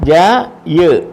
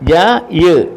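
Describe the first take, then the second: The two takes are said the same way.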